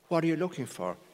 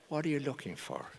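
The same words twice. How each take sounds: First: It sounds worried and defensive. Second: It sounds calm and unworried.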